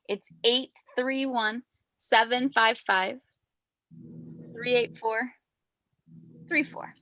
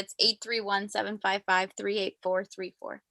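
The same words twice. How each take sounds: First: The number is said more slowly. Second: The number is said at normal, faster speed.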